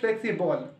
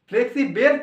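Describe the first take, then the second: First: No clear vowel comes before the final l. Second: A clear 'e' vowel comes before the final l. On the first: The speaker calls it right. "Actually উচ্চারণ হচ্ছে ফ্লেক্সিবল, কারণ ইয়ের উচ্চারণ হয় না এখানে" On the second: The speaker calls it wrong. "ফ্লেক্সিবেল তুমি উচ্চারণ করতে পারো"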